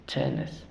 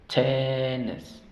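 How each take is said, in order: First: Said in the usual way. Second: "tenis" drawn out slowly, TEN-nis; syllable demonstration. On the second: Shown as a demonstration. Teacher shows strong and weak syllables, "tenis" very slow with long first vowel. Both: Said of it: "la sílaba débil".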